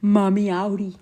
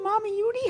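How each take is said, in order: First: "Mommy Auri" said carefully with the right vowel; the fixed "Mommy Auri"; corrected name. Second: "Mommy Yuri" said with a Y sound, the wrong way; botched "Mommy Yuri"; mispronounced name. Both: Real, not acted. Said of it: "I said your name all wrong".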